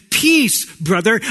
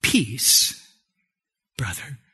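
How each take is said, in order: First: Higher, punched-up PEACE; big bright-pitched hail to a brother; lively greeting. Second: Low, hushed offer of peace; quietly bestow peace, dropping away softly; calm Jesus-like greeting. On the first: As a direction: toss out a loud, high greeting. First take of a greeting, then corrected. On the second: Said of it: "he did it like this". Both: Acted.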